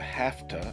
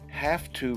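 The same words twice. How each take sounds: First: 'Have to' is reduced to a quick 'hafta'. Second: 'Have to' is said fully, each sound clear.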